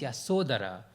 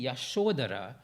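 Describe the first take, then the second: First: The middle consonant is an 's' sound. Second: The middle consonant is a 'sh' sound. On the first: This is the Pali form of the name. "the Pali is Yasodhara" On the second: This is the Sanskrit form of the name. "the Sanskrit would be Yashodhara"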